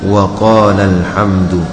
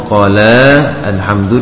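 First: The syllable before alhamdu is said at normal pitch. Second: The syllable before alhamdu is raised and emphasized. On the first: "untuk membedakan dengan waqala alhamdu" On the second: "dibaca dengan nabr"

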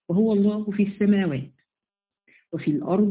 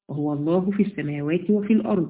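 First: There is a pause after 'as-samawat'. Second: There is no pause after 'as-samawat'. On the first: God is in the heavens, and the next phrase starts anew. "هناك علماء يقرؤونها هكذا" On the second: God is in both the heavens and the earth. "من يقرأه على الوصف"

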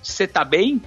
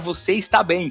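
First: The words are shortened and run together. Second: Each word is said in its full form. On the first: "ele escreveu tudo junto, cê tá bem" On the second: "tive que explicar que era você está bem"

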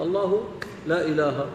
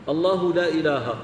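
First: The speaker continues without stopping after the phrase. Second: The speaker stops right after the phrase. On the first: The full statement affirms that there is no god but Him. The speaker calls it right. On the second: The meaning becomes the opposite, denying any god. The speaker calls it wrong.

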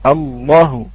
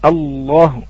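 No difference in how they are said.

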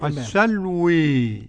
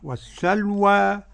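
First: The final vowel leans strongly toward e. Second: The final vowel is an open a. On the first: "بالإمالة" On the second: "قرأ بالفتح والتقليل ورش"

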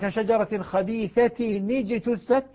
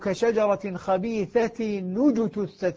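First: The words are linked with an i vowel. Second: The words are linked with a u vowel.

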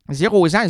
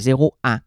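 First: A z sound links zéro to ans. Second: No z sound links zéro to ans. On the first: The speaker calls it wrong. "où tu vois le zan dans 0 ans?" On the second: The speaker calls it right. "il n'y a pas un S pour faire une liaison"

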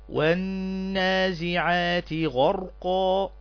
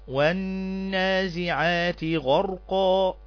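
No difference in how they are said.

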